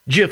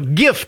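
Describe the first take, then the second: First: The word starts with a j sound. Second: The word starts with a hard g sound. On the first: It names a peanut butter brand. "GIF is a peanut butter" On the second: It names the online image format. "GIF to me is the online image"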